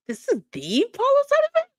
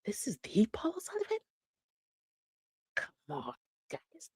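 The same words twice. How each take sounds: First: High, loud incredulous question; incredulous squeal. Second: Hushed, breathy question of disbelief; whispered disbelief. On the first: Host watching the clip with viewers, squealing in disbelief. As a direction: shriek it in total disbelief. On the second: Host watching the clip with viewers, whispering in disbelief. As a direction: whisper it like you can't believe your eyes. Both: Real, not acted.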